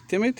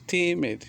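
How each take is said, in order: First: Said in the usual way. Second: "Timid" drawn out as ti-mid, falling; teacher separating "Timid" into two syllables; syllable demonstration. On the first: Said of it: "has two syllables". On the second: Shown as a demonstration. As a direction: sound out both beats of "Timid". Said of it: "timid has two syllables".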